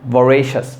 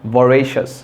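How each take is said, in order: First: The second syllable is pronounced 're'. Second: The same.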